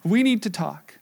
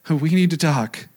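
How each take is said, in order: First: It is said in an excited tone. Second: It is said in a scared tone.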